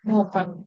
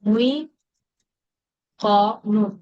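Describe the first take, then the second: First: The first syllable has a plain 'u' vowel. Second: The first syllable has an 'ui' glide. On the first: The speaker calls it right. "আমরা এটাকে বানাবো" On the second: The speaker calls it wrong. "তো এখানেও সমস্যা"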